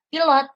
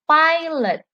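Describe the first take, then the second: First: It is pronounced the Indonesian way. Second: It is pronounced the English way. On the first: "artinya pilot dalam bahasa Indonesia" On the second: "dalam bahasa Inggris, pilot dibacanya pilot"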